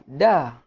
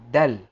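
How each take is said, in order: First: The name ends on the vowel, with no l. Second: The name ends with a clear l sound. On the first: The speaker calls it wrong. "Bukan da" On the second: The speaker calls it right.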